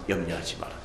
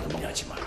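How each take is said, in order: First: Tender reassurance. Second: Whispered reassurance. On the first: God's reassurance voiced softly. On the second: Voicing God comforting the worried believer, whispered. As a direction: breathe it gently to calm them. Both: Acted.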